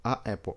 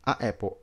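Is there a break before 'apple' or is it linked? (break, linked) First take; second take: break; break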